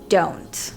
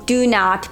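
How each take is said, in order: First: It is said as one contracted word. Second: It is said as two full words.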